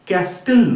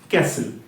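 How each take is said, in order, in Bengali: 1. s-এর পরে t ধ্বনি উচ্চারিত হয়। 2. s-এর পরে কোনো t ধ্বনি উচ্চারিত হয় না। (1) "ক্যাস্টেল না" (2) "টিটা কিন্তু সাইলেন্ট এখানে"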